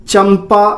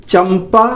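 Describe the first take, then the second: Both takes have the same delivery.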